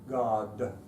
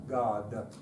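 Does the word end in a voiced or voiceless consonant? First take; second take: voiced; voiced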